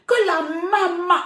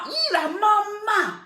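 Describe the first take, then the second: First: Mock surprise build-up. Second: High, slow squeal of mock delight; mock joyful surprise. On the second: Mother mocks a young man thrilled she phoned, high squeal. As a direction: parody being thrilled mum called. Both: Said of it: "c'est ta joie que tu manifestes comme ça".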